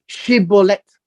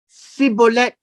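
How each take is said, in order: First: It begins with 'sh', the Gileadite way. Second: It begins with 's', the Ephraimite way.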